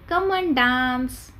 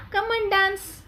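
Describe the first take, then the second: First: Drawn-out, slow teacher demo; slow model phrase. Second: Mock friendly invitation. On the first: Shown as a demonstration. Teacher slowly models the party invitation. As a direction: stretch it out for the class. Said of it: "So what we will say?". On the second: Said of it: "we will call na".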